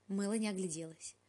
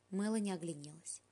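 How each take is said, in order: First: Said in the usual way. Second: "огляделась" misread as "огляНелась". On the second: Shown as a demonstration. Narrator misreads the line before the retake, "огляНелась". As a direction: stumble on "огляделась", saying "огляНелась".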